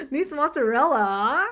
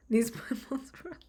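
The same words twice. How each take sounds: First: Said in the usual way. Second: Whispered with a laugh in it; whispered aside. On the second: Shown as a demonstration. Trying the joke quietly first, laughing whisper. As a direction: breathe it out as a giggly whisper.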